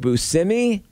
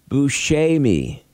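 First: The E is said as an E sound. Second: The E is said as an A sound. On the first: The speaker calls it wrong. "They're both wrong" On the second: The speaker calls it right. "the E is pronounced as an A in Italy"

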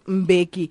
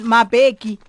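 First: The name starts with a bare 'm' sound. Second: The name starts with a full 'ma' syllable. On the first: The speaker calls it right. "instead of Mbeki" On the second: The speaker calls it wrong. "and Mabeki"

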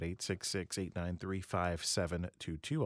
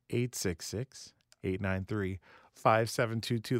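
First: The number is said at normal speed. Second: The number is said slowly.

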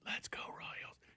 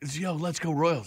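First: It is whispered. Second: It is said in a normal voice.

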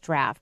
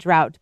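First: It rhymes with 'raft' and ends with an f sound. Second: It rhymes with 'out' and has no f sound. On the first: "but there it's pronounced draft" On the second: "So here, D-R-A-U-G-H-T would be drought"

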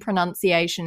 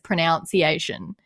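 First: The second syllable sounds like 'nun'. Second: The second syllable sounds like 'noun'.

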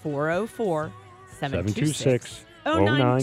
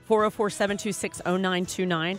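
First: The number is read at a slow pace. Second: The number is read at a quick pace.

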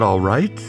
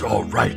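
First: The pitch rises at the end. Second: The pitch falls at the end. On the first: It asks whether something is acceptable. "you can like go up at the end. Is that all right? Like a question?" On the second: It affirms that something is fine. "Or you can go, yeah, man, that's all right"

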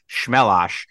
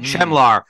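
First: The name is said with an 'osh' ending. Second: The name is read with an 'ar' ending. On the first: This is how the player says his name. The speaker calls it right. "Apparently, it's pronounced Shmelosh" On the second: The name is read as it is spelled. The speaker calls it wrong. "It looks like Chemlar"

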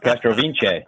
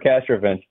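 First: The surname is pronounced in a more ethnic way. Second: The surname is pronounced in a plainer, anglicized way. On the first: This claims a stronger ethnic identity. "decided we're a lot more ethnic than we used to be" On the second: This is how the family usually says the name. "I would say we're Castrovince"

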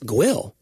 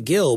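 First: It begins with a G followed by w. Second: It begins with a plain G sound. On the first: Long-time locals say the name this way. "someone said who's a true Mount Julianite. That it's Gwill" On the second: This is how the speaker says the name. "I say Gill"

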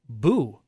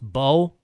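First: The vowel is a long 'oo' sound. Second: The vowel is a long 'oh' sound. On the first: The speaker calls it wrong. "who called me Boo" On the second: The speaker calls it right. "it's pronounced Bo"

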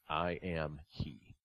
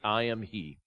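First: It is said slowly and softly. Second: It is said matter-of-factly at normal volume.

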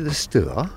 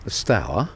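First: It is said in the posh pronunciation. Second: It is said in the local Harwich pronunciation.

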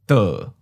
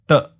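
First: The pitch starts mid and falls. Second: The syllable is short, cut off at mid pitch. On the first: "Third tone, mid falling" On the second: "Fourth tone, mid stop"

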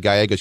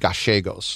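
First: It is said in a Mexican Spanish accent. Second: It is said in an Argentine Spanish accent. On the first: The speaker calls it wrong. "you don't say Gallegos" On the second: The speaker calls it right. "you say Gallegos"

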